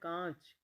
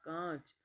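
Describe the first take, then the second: Both takes have the same delivery.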